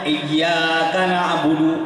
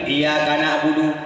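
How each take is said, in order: First: The y sound in iyyaka is doubled. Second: The y sound in iyyaka is single. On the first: You alone we worship. The speaker calls it right. "yang makna lagi akan engkau kami sembah" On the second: The sun we worship. The speaker calls it wrong. "Tasdid gadah lain makna"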